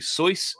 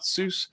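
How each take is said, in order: First: The name is said the original, non-Americanized way. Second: The name is said the Americanized way. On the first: This is how the name is really pronounced. The speaker calls it right. "The way that it's pronounced is actually Seuss" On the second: This is the common Americanized pronunciation. The speaker calls it wrong. "not Seuss"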